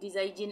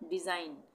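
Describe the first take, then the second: First: A g sound is pronounced before the final n. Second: No g sound is pronounced before the n. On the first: The speaker calls it wrong. "इस तरह से तो नहीं पढ़ेंगे ना" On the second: The speaker calls it right. "जी का उच्चारण नहीं होगा"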